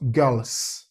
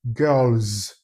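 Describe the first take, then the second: First: Put-on "girls" ending in a hissed s; wrong voiceless plural. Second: Put-on "girls" ending in a buzzing z; correct voiced plural. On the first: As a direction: end "girls" on a sharp voiceless s, not z. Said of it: "not girls". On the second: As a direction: draw out "girls" with a voiced z at the end. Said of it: "what you should pronounce should be". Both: Shown as a demonstration.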